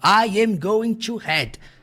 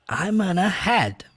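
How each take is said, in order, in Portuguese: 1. Todas as palavras são ditas por extenso, sem redução. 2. As palavras são contraídas e reduzidas para gonna. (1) "no dia a dia ninguém fala daquele jeito ali" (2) "Simples, I'm gonna head"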